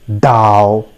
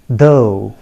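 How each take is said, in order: First: The word begins with a hard d sound. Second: The word begins with a soft th sound. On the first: The speaker calls it wrong. "Many of us say Dao, right? But that is not the correct pronunciation" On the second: The speaker calls it right. "the correct pronunciation of this word is though"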